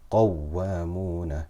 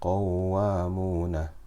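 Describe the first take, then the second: First: The doubled waw is stressed with raised voice. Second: The vowel before the waw is stretched long. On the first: The speaker calls it right. "I'm raising my voice ever so slightly" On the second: The speaker calls it wrong. "Here I'm not doing nabr"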